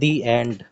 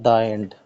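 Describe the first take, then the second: First: The vowel in 'the' sounds like 'ee'. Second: The vowel in 'the' is a short 'uh'. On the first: The speaker calls it right. "whenever we use vowel sound word like a e i o u, then we use the. For example" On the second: The speaker calls it wrong.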